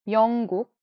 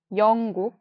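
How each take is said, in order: Both takes have the same delivery.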